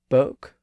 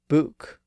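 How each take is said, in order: First: The vowel is an 'oh' sound. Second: The vowel is a long 'oo' sound. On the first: This is the oldest form of the word. "book began as boke during the time of Chaucer" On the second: This is the form after the vowel was raised. "The vowel was then raised up"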